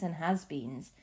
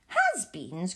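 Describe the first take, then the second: First: Said in the usual way. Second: Has-beens? with a rising, louder disbelieving tune; a puzzled rising Has-beens?; incredulous cry. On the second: A narrator's reading. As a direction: repeat it in disbelief. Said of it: "cried Violet Beauregarde".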